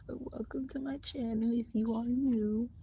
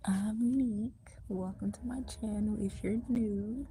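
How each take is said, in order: First: Voiced louder greeting. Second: Whisper. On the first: Greeting new viewers out loud from the library. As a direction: welcome said out loud and higher, not whispered. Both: Real, not acted. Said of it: "so that's why I'm whispering".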